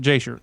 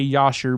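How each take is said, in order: First: The name begins with a J sound. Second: The name begins with a Y sound. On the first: It follows a Texan English pronunciation. "I'm from Texas; I pronounce it Jasher" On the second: It follows the Hebrew pronunciation. "some people say Yasher because J in Hebrew is not pronounced with the J; it's pronounced with the Yah"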